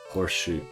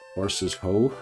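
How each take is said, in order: First: The break falls after horse: horse shoe. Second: The break falls after horses: horses ho.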